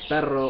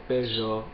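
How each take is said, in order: First: The r is a rolled trill. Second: The r is a buzzing zh-like sound. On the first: "instead of saying perro or rato" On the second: "pronouncing r ... as j"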